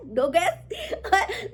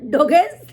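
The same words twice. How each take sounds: First: Name stretched very slowly through laughter; drawn-out laugh. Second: Name called out loud with a laugh; mock call. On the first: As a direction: let the name melt into a giggle, very slow. (हँसी में बहुत धीरे खींचा नाम) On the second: (हँसते हुए ज़ोर से नाम पुकारना) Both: Real, not acted.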